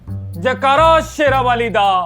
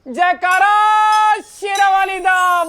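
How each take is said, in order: First: The call is shouted at its lowest volume. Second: The call is shouted louder than the first. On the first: "वहां मैंने आवाज लगाई" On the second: "मैंने और जोर से आवाज लगाई"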